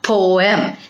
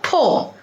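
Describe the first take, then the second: First: The word is drawn out, sounding the E. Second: The word is short, with the E silent. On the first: The speaker calls it wrong. "We are just habituated to pronounce P O E M as poem, but it is not poem" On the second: The speaker calls it right. "It is just called poem. Okay, because E is silent over there"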